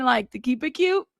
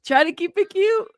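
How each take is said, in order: First: Said in the usual way. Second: Sing-song high. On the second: Shown as a demonstration. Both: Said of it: "I'm trying".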